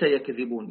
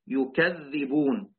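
First: The middle consonant is single and short. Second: The middle consonant is doubled and held longer. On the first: "وليس" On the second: "بالتشديد أي هكذا"

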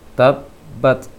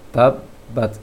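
No difference in how they are said.

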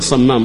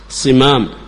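First: The first vowel is 'a' (samam). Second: The first vowel is 'i' (simam). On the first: The speaker calls it wrong. "ليس صمام" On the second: The speaker calls it right. "صمام بالكسر"

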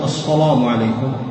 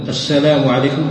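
First: The s sound is heavy and emphatic. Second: The s sound is light and plain. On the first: The speaker calls it wrong. "فالسين إذا فخمتها صارت صادا" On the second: The speaker calls it right. "عوض ما تقول مثلا السلام عليكم"

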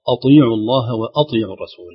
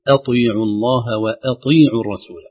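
First: The opening glottal stop sounds heavy and thickened. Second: The opening glottal stop sounds light and thin. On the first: The speaker calls it wrong. "البعض يقول أطيعوا الله وأطيعوا الرسول حتى يعني تتماشى الهمزة مع الطاء" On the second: The speaker calls it right. "لكن الصحيح تخليص الهمزة برقتها من الطاء بتفخيم"

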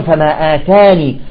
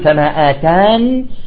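First: The word ends with the final long ee vowel. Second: The word ends without the final long ee vowel. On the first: "وأيضا فما آتاني" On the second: "يجوز الوقف عليها بالوجهين"

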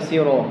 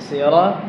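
First: The final vowel sounds like a rounded 'o'. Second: The final vowel sounds like an open 'a'. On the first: The speaker calls it wrong. "bukan siro" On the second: The speaker calls it right. "Sirah, bukan siro"

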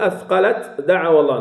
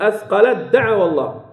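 First: The t is pronounced separately before the d. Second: The t merges fully into the following d. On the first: The speaker calls it wrong. "لا نقول" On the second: The speaker calls it right. "نقول ... تدغم التاء كاملة في الدال"

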